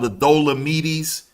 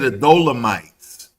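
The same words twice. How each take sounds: First: The name is pronounced in a non-English way. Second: The name is pronounced in the English way.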